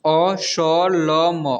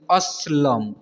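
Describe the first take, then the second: First: असलम very slow, each letter separate; असलम broken into drawn-out letters; spelled out letter by letter. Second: Said in the usual way. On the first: Shown as a demonstration. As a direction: sound out असलम one long letter at a time. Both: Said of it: "इसे पढ़ेंगे".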